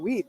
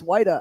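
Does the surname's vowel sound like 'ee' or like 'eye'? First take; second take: ee; eye. First: The vowel sounds like 'ee' in 'weed'. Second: The vowel sounds like 'eye' in 'white'. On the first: The speaker calls it wrong. "I literally thought it was Vander Weed" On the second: The speaker calls it right. "she's like, "It's Whita." I'm like, "Oh crap.""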